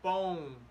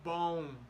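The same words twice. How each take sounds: No difference in how they are said.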